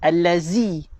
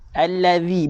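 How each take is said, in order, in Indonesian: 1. Konsonan di tengah itu bunyi z yang bergetar. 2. Konsonan di tengah itu bunyi th yang lembut. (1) "bukan, salah" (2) "lidah kena keluar lebih daripada gigi"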